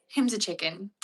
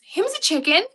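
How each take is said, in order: First: Said in the usual way. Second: Loud, high-pitched cutesy exclamation. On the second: Real, not acted. Baby talk about her parrot.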